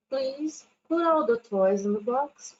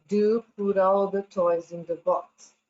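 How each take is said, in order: First: Gently polite, slower; teacher showing the gentler please version, polite; polite request. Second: A touch of a stern mom, slightly louder; mother scolding kids over the mess, stern. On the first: Shown as a demonstration. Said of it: "ser um pouquinho mais ser educado, ameno". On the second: Acted. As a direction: mom telling messy kids to tidy up, firmly. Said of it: "Aí a mãe chega e fala".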